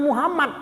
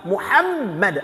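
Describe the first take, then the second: First: The middle m is short, not doubled. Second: The middle m is held long, doubled. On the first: The speaker calls it wrong. "bukan Muhammad" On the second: The speaker calls it right. "tapi Muhammad. Ada tasydidnya"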